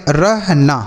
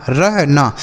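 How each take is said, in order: No difference in how they are said.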